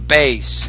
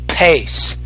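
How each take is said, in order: First: The word begins with a soft b sound. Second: The word begins with a breathy p sound. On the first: The speaker calls it wrong. "You're saying bass" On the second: The speaker calls it right. "I say pace"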